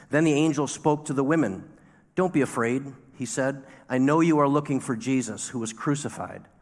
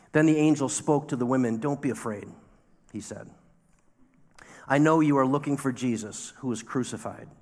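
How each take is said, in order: No difference in how they are said.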